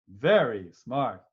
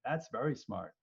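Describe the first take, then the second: First: Slow, louder mock praise; sarcastic praise. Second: Said in the usual way. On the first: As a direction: drag it out sarcastically. Mocking the wrong triage choice.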